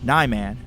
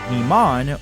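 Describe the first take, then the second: First: The first vowel sounds like 'eye'. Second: The first vowel sounds like 'ee'. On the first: "spoken with a more active I" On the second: "I go with the idea of Japanese vowels"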